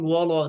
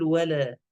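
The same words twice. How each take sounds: First: "ولا" with dark "wolo" vowels; faulty emphatic colour on "ولا"; wrong heavy wala. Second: "ولا" with thin "wale" front vowels; corrected, unthickened "ولا"; light wala. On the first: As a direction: round and thicken "ولا". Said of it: "لا نقول ولا". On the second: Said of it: "نقول ولا". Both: Shown as a demonstration.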